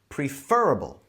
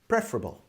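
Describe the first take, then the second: First: The stress is on the second syllable. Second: The stress is on the first syllable. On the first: "with the stress on the fur in the center. And the E sounds like E as in bee" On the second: "with the stress on the pre part. And the E sounds like E as in bed"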